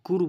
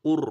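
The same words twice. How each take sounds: First: কুর with a thin, light r; wrong thin r. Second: KUR with a thick, full r; full heavy r. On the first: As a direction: say কুর lightly, lips unrounded. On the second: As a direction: say কুর heavy and rounded. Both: Shown as a demonstration. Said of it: "কুর বলবেন না".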